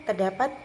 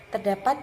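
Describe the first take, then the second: No difference in how they are said.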